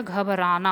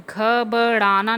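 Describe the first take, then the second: First: घबराना with a plain r; correct pronunciation. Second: घबराना with a flapped ṛ for r; wrong pronunciation. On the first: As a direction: say घबराना as ghabaraana. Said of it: "घबराना होता है". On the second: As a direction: say घबराना as ghabaṛaana, slowly broken up. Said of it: "घबराना नहीं होता". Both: Shown as a demonstration.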